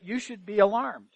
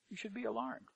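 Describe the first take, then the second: First: Said in the usual way. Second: The warning echoed, far softer; hushed repeat. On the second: Real, not acted. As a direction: let it sink in, almost under the breath.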